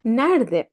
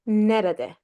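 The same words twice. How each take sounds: First: "Nerede" shortened to NER-de, middle e dropped; everyday spoken "Nerede", run together as nerde; spoken contracted form. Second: "nerede" in three full syllables, ne-re-de; careful spelled-out "nerede", middle e kept; as written. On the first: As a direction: say "Nerede" in two syllables, as NER-de. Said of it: "but we say nerede". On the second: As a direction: sound out every e in "nerede". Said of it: "we write it as nerede". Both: Shown as a demonstration.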